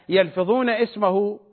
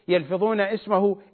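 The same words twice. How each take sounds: Both takes have the same delivery.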